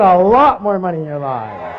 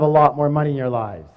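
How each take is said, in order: First: LOT punched high and loud; stress on LOT. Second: Said in the usual way. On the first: Real, not acted. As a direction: hit the word "lot" hard and draw it out. Insistent repeat correcting the audience.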